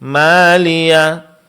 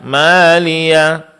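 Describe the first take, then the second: No difference in how they are said.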